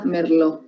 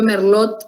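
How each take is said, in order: First: It is said in its usual spoken form. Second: Every letter is sounded as it is written. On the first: "pero se pronuncia merlot" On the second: "se escribe merlot"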